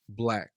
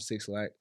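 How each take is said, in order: First: The name is said as one syllable, 'black'. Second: The name is said as 'six lack'. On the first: The speaker calls it right. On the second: The speaker calls it wrong. "I used to call him Six Lack, like probably anybody else that didn't know for sure"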